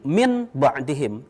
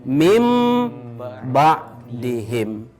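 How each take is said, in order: First: An n sound is kept before the b. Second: An m sound replaces the n before b. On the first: The speaker calls it wrong. "maka tidak dibaca lagi min ba'dihim" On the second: The speaker calls it right. "yang benar ... harus dibaca menjadi mim ba'dihim"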